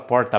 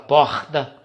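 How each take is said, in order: First: It is said in an inland São Paulo accent. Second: It is said in a Rio de Janeiro accent. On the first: "Que nem o pessoal do interior do estado de São Paulo" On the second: "o carioca fala porta"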